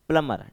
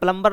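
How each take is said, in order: First: No b sound is heard after the m. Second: A b sound is heard after the m. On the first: The speaker calls it right. "ये होता है प्लमर" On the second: The speaker calls it wrong. "But प्लम्बर नहीं होता"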